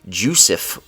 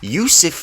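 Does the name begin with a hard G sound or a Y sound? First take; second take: G sound; Y sound. First: The name begins with a hard G sound. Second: The name begins with a Y sound. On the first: The speaker calls it wrong. "I tried to pronounce it as a G" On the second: The speaker calls it right. "because I know how to say this man's name"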